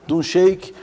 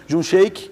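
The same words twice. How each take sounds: The two takes are said the same way.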